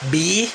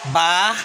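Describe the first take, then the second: First: The letter is said as 'bee'. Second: The letter is said as 'bah'. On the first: "In English" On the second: "Pag Tagalog"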